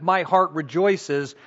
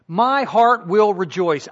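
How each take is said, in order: First: Said in the usual way. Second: My heart will rejoice said with firm resolve, a bit louder; resolute emphasis. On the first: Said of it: "It's not just an indicative". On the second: Shown as a demonstration. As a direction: push will like a vow. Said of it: "I am resolving to rejoice".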